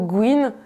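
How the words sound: The first consonant is a hard 'g' sound. This is the pronunciation used elsewhere. "alors qu'ailleurs on dira plutôt guine"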